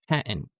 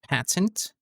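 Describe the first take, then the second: First: The middle t is a glottal stop. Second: The middle t is a full t sound. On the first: "it becomes patent" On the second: "it's not patent"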